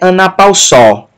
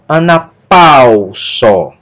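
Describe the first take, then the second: First: The stress falls on a syllable other than pau. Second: The stress falls on the syllable pau. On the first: The speaker calls it wrong. "nem é anapausó" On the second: The speaker calls it right. "Mas a sílaba tônica, pau"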